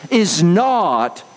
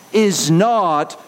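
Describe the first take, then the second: No difference in how they are said.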